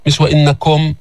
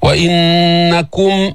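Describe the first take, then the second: First: وإنكم with the kaf's u slurred; ضمة مختلسة; wrong, swallowed vowel. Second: Slow وإنكم with a clear u on the kaf; ضمة الكاف واضحة; clear kaf damma. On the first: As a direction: mumble the u of وإنكم. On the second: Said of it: "بين لي ضمة الكاف". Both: Shown as a demonstration.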